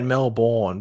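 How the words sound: It is said with an American pronunciation. The speaker calls it wrong. "The Americans say it Melbourne"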